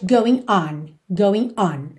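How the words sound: There is a short pause between the words. "mas ela faz going on"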